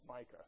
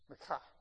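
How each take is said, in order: First: The name has the standard American pronunciation. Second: The name has a different, non-American pronunciation.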